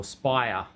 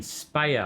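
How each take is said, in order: First: Speyer said as SPY-er; first syllable of Speyer rhymes with eye; corrected pronunciation. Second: Speyer said as SPAY-er; first syllable of Speyer rhymes with day; alternative pronunciation. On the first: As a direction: say Speyer like the English word spire. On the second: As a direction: say Speyer with an "ay" vowel. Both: Shown as a demonstration. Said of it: "How, how do we say it?".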